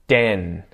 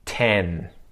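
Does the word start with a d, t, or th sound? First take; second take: d; t. First: The word begins with a d sound. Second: The word begins with a t sound. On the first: "then a D sound" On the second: "and then a T sound"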